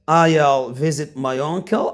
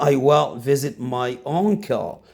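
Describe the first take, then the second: First: 'I will' is shortened into one syllable. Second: 'I will' is said as two full words.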